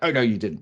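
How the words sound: It is said in a special put-on voice.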